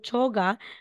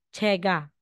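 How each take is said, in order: First: The first vowel is an 'o' sound. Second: The first vowel is an 'e' sound. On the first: The speaker calls it wrong. "hindi po" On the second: The speaker calls it right. "kundi magiging"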